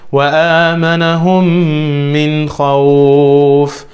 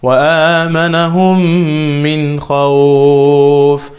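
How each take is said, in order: First: The long vowel is held for two counts. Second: The long vowel is held for four counts.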